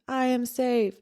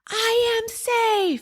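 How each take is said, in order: First: It is said weakly, with a shaky, broken voice. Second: It is screamed very loudly with full force. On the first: The person feels scared and unsure. "a very weak, a very broken" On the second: The person truly feels and believes it. "she's like screaming"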